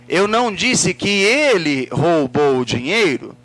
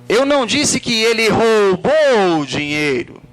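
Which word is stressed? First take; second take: ele; roubou. First: The stress falls on the word ele. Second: The stress falls on the word roubou. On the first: Someone else stole it. "quem foi que roubou?" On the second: He did something else with the money. "O que, que ele fez com o dinheiro?"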